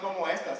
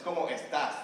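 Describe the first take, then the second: First: The stress in estás falls on the first syllable. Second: The stress in estás falls on the last syllable. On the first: The speaker calls it wrong. "it's not como estas" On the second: The speaker calls it right. "con el acento estás"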